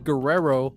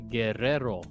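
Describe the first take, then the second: First: The r sounds are plain, not rolled. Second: The r sounds are rolled, Spanish style. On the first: The speaker calls it wrong. "Don't say Guerrero" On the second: The speaker calls it right. "say Guerrero"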